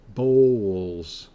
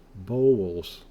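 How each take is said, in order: First: A W sound is heard in the word. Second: A W sound is heard in the word.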